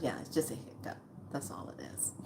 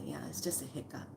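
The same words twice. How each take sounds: First: Nurse's words echoed in a whisper; a soft unvoiced repeat of the line. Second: Said in the usual way. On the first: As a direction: hush it back as reassurance. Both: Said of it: "She goes".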